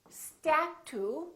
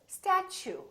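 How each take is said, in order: First: The t is said as a plain t. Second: The t is said like ch. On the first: The speaker calls it wrong. "We don't say statue" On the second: The speaker calls it right. "So the T, U sound like ch"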